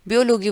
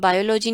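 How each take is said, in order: First: The first syllable is said like 'bee'. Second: The first syllable is said like 'bai'. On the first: The speaker calls it right. "बल्कि बियोलॉजी बोलना है" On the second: The speaker calls it wrong. "ये अब बायोलॉजी नहीं"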